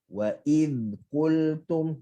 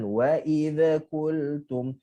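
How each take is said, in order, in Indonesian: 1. Bunyi dh ditahan sebentar tanpa lantunan. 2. Bunyi dh dilepaskan dengan gema lantunan. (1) "kita tahan sekejap lidah kita dekat makhraj zal" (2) "jangan... Itu lantunan"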